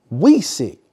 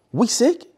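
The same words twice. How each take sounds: First: "We sick." loud, falling at the end; emphatic statement. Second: "We sick?" high, rising at the end; questioning rise. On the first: Same words restated as emphatic answer. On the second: Servant's worried question to boss. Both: Acted.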